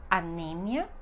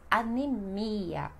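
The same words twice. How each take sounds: First: "anemia" as a-NE-mia, stress on NE; Spanish pronunciation. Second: "anemia" slowly as a-ne-MI-a; Portuguese pronunciation. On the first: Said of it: "no espanhol". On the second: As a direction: draw out the stressed MI in "anemia". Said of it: "e no português". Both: Shown as a demonstration.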